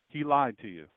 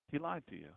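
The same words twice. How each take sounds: First: Said in the usual way. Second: Hushed repeat. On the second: Shown as a demonstration. Preacher repeating the warning in a hush. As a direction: drop to a near hush on the repeat.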